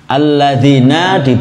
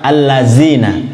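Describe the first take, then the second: First: The middle consonant is a voiced 'th' sound. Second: The middle consonant is a plain 'z' sound. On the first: The speaker calls it right. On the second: The speaker calls it wrong. "dibaca allazina umpamanya, tidak bermakna sama sekali"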